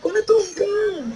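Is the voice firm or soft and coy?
soft and coy. It is said in a soft, coy voice.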